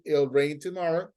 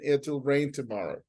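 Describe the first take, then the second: First: The T in "it'll" is dropped, like "ill". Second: The T in "it'll" is clearly pronounced. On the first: "sometimes they do not take the T as a pronunciation" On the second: "you go with that T sound in the middle"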